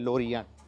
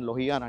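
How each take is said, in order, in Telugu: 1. మధ్య హల్లు r ధ్వని. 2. మధ్య హల్లు h ధ్వని. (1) "బట్ ఇట్ ఈస్ యాక్చువల్లీ లోరియాన్" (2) "లోహియాన్ లోహియాన్ అంటే నాకు అర్థం కాలేదు"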